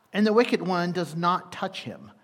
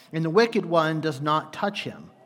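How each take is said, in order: The two takes are said the same way.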